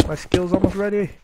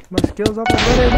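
First: Said in the usual way. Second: Higher and louder, pressing urgency; urgent repeat. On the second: Real, not acted. Gamer under attack, repeating it urgently and louder. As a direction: say it again, now anxious.

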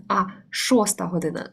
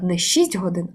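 First: Шоста set against шість, with the weight on шоста; stress on шоста. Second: Said in the usual way. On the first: Shown as a demonstration. Teacher contrasting the wrong and right way to tell time. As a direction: correct it to шоста година. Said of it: "не шість годин, а шоста година".

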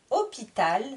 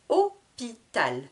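First: Said in the usual way. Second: "Hôpital" slowly as Hô... pi... tal; split into syllables. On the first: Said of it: "je vous répète le vocabulaire de chaque mot". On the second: Shown as a demonstration. Teacher cutting the word in three, "Hôpital" syllable by syllable. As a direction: draw "Hôpital" out in three beats. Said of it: "je coupe le mot en trois syllabes".

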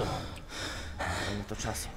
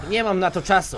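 First: Much softer, slow and low, near a murmur. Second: Said in the usual way. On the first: Shown as a demonstration. Gamer repeating his line to himself as a slow low murmur. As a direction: drag it out soft and low like an ominous aside.

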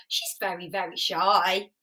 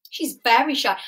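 First: Much softer, hushed very very shy. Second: Said in the usual way. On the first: Shown as a demonstration. Host telling children Roo is shy, hushed and soft. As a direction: drop to a hush so as not to scare Roo. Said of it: "help our friends when they feel shy".

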